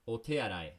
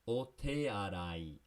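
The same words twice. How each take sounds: First: It is said more quickly. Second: It is said slowly.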